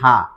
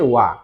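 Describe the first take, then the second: First: It begins with an h sound. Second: It begins with a w sound. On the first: This is the letter's usual reading. "এটা আমরা হিরাগানায় শিখেছি হা" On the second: This is its reading as a particle after the subject. "যখন এটা সাবজেক্টের পরে বসতেছে তখন এটা হয়ে গেছে ওয়া"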